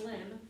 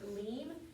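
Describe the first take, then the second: First: The vowel is a short 'i' sound. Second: The vowel is a long 'ee' sound. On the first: The speaker calls it wrong. "which looks like limb" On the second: The speaker calls it right. "but it's actually pronounced leem"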